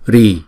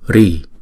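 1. Nguyên âm được giữ trong một nhịp ngắn. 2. Nguyên âm được giữ trong hai nhịp dài. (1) "chúng ta sẽ đọc một nhịp" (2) "chúng ta sẽ đọc hai nhịp"

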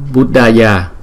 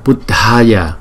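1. Âm d không bật hơi, không có hơi thêm. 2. Âm d bật hơi, có một luồng hơi bật ra. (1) "Nếu mà chữ D không, chúng ta đọc là Buddhaya" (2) "cái hơi trong miệng mình phải nhiều hơn là chữ D không"

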